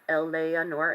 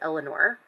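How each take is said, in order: First: Every syllable is fully and clearly pronounced. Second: Some syllables are reduced, as in modern speech. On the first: "Phonetic, Eleanor, every syllable is pronounced" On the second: "modern English pronunciation where we would say Eleanor"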